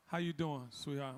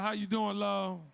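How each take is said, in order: First: Low soft flirty murmur, lower and softer; flirty greeting. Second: Said in the usual way. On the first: Real, not acted. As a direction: drop it low and soft, like a come-on. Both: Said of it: "I didn't mean to say it like that".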